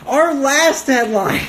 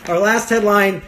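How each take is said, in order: First: High, drawn-out mock announcer; grand announcement. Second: Laughing restart. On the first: Host announces the final news item, hammed-up high announcement. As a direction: proclaim it slowly, pitched way up. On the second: Real, not acted. Laughs, repeats the announcement more normally.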